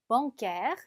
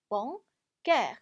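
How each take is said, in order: First: Said in the usual way. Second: "bancaire" in two parts, pause after "ban"; split into syllables. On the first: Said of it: "나누어서 읽어주시면". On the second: Shown as a demonstration. Teacher shows learners how to divide "bancaire", syllable by syllable. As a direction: say "ban", pause, then "caire". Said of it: "이렇게 나누어서 읽어주시면".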